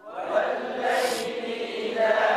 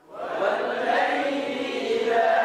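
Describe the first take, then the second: No difference in how they are said.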